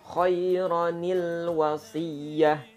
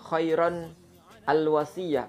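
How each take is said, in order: First: The first word ends in 'ronil' before wasiyah. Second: The first word ends 'ron', then a separate 'al'. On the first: The speaker calls it right. "Jadi dibaca nil" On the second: The speaker calls it wrong.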